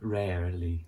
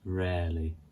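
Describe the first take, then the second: First: The second R sound is clearly pronounced. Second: The second R sound is left out. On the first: The speaker calls it wrong. "we don't say that rarely. We don't say the second R" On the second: The speaker calls it right. "It's just rarely"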